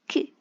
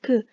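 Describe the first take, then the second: First: The k is released with a puff of air. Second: The k is released without a puff of air. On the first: The speaker calls it right. "It is k, ... Like you're throwing out some air" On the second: The speaker calls it wrong. "It is not k"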